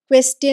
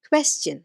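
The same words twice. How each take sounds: First: The ending does not have a 'chen' sound. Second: The ending has a 'chen' sound. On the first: The speaker calls it wrong. "പൊതുവെ പറയാനൊരു tendency ഉണ്ട്" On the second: The speaker calls it right. "അത് ചെന്നാണ് കേട്ടോ എൻ്റെ pronunciation"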